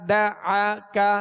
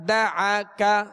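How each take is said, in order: Both takes have the same delivery.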